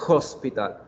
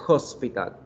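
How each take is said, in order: First: The word starts with a breathy h sound. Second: The same.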